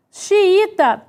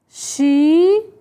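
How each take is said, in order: First: Said in the usual way. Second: "Xiita" split into slow, drawn-out syllables. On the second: Shown as a demonstration. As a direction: say "Xiita" one syllable at a time with long gaps. Writing the word syllable by syllable.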